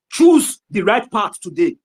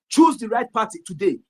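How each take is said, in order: First: "Choose the right path today" said slowly and louder, every word pressed hard; slow emphatic command. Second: Said in the usual way. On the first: Real, not acted. Urging his listeners, slow and heavy with "Choose the right path today". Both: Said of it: "Ignore my intonation".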